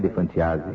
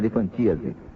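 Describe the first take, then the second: First: The stress falls on the 'a' syllable. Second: The stress falls on the 'ti' syllable. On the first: The speaker calls it wrong. "Não é elefantiase" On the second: The speaker calls it right. "a pronúncia certa"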